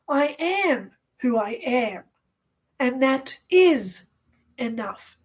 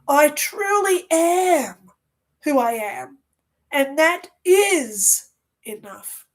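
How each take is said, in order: First: It is said with a little conviction. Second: It is said with strong conviction.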